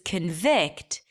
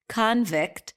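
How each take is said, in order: First: The stress is on the second syllable. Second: The stress is on the first syllable. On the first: "the first syllable is reduced, a schwa" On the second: "in convict, the stress is on the first syllable and the second syllable is reduced"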